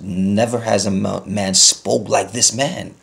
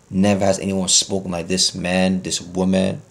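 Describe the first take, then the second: First: Slow, emphatic scripture quote; quoting scripture. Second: Said in the usual way. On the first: Acted. Preacher quoting the Bible to his congregation, slow and emphatic. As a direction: draw out every word of the verse. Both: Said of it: "and the Bible says".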